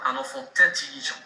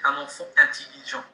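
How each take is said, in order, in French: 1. Un son t fait la liaison entre 'enfant' et 'intelligent'. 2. Pas de liaison entre 'enfant' et 'intelligent'. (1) "On ne dit pas" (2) "la liaison interdite"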